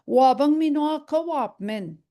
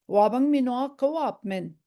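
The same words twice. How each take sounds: First: "Wabang minwa ka wap min" said higher and louder, each word clear. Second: Said in the usual way. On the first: Shown as a demonstration. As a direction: lift "Wabang" high and firm. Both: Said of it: "And then say it like that".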